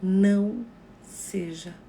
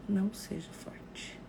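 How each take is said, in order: First: Very slow, loud "Não seja"; slow emphatic advice. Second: "Não seja forte" said slowly and softly; slow it right down and soften; slow gentle advice. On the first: Teaching viewers what to tell a grieving friend, slow and loud. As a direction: draw out each word gently. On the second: Showing viewers what to say while hugging a mourner, slowly and softly. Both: Shown as a demonstration. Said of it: "diga pra ela".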